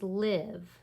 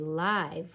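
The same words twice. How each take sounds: First: The vowel is short, rhyming with give. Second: The vowel is long, rhyming with five. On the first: To reside somewhere. "like I live here" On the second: Being alive. "like a live fish"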